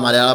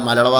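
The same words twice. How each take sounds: Both takes have the same delivery.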